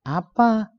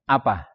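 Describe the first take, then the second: First: High, drawn-out "apa?"; different intonation. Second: Short, low, falling "Apa"; different intonation. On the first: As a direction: stretch "apa" up high in surprise. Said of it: "Dengan intonasi yang berbeda". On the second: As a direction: drop "Apa" curtly downward. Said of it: "Intonasi yang berbeda memberikan kesan". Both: Shown as a demonstration.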